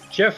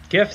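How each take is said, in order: First: It begins with a soft J sound. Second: It begins with a hard G sound. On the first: "Jif sounds like the peanut butter" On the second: "GIF sounds like gift without the T"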